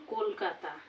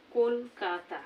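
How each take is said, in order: First: Said in the usual way. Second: Kolkata said in three separate beats, kol-ka-ta; broken into syllables. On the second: Shown as a demonstration. Teacher showing students three syllables, Kolkata broken up as kol-ka-ta. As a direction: break Kolkata into kol, ka, ta with small gaps. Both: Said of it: "এভাবে ভেঙে ভেঙে".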